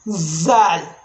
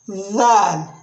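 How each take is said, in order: First: It starts with a buzzing z sound. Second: It starts with a voiced th sound. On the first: The speaker calls it wrong. "you are going to pronounce it as zal" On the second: The speaker calls it right. "the right pronunciation is dhal"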